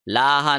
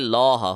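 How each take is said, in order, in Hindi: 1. L हल्का और पतला है। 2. L भारी और मोटा है। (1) "लाहा नहीं होगा" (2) "बल्कि लौह होगा"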